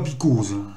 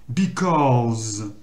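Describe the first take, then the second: First: The O vowel is kept short. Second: The O vowel is drawn out long. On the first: The speaker calls it wrong. "et surtout pas because" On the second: The speaker calls it right. "mais en allongeant le O"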